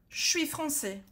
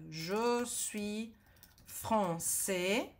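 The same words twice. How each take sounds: First: 'Je suis' is squeezed into one short sound. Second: 'Je suis' is said fully and separately. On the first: This is how natives really speak. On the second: This is the textbook form. "francês do cursinho"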